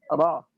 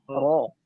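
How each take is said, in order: First: The vowel is said without lip rounding. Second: The vowel is said with rounded lips. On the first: The speaker calls it right. "Yang benar" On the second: The speaker calls it wrong. "Dimonyongkan bibirnya. Ini kesalahan"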